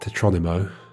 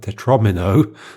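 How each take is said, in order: First: The word ends with the sounds nimo. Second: The word ends with the sounds mino. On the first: The speaker calls it wrong. "not tetronimo. that would be like Geronimo, but it's not that" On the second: The speaker calls it right. "like domino"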